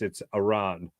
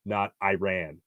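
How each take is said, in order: First: "Iran" said ih-RAHN, with a long ah; reporter's correct pronunciation. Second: "Iran" said eye-RAN; rejected American pronunciation. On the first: Host quoting reporter correcting a player, Iran as ih-RAHN. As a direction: say "Iran" as ih-RAHN, drawn out at the end. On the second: Host quoting what reporter rejected, Iran as eye-RAN. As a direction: make "Iran" sound like "I ran". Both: Retold or imitated. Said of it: "Started off with".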